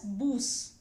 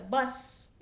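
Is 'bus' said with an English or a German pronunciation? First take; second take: German; English. First: The word is said the German way. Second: The word is said the English way. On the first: "but it's pronounced as Bus" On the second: "Bus is the word in English"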